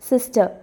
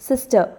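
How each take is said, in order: Both takes have the same delivery.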